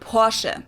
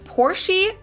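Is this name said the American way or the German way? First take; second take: German; American. First: It is said the German way, ending in short e. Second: It is said with an American pronunciation. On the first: "In German, we say Porsche. This short E sound in the end" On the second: "I've heard Americans pronounce it Porsche"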